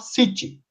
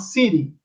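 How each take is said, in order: First: It is said in a British accent. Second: It is said in an American accent.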